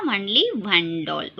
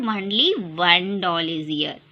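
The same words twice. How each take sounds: First: Only stretched, slow and lower; slow model answer. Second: Slow, lower, deliberate answer; slow model answer. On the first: Teacher repeating the answer slowly for children. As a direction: drag it out for the class. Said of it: "कितने doll है बेटा". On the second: Teacher modelling the answer slowly for children. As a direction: say it slowly so kids repeat. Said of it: "ये कितने doll है यहाँ पर". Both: Shown as a demonstration.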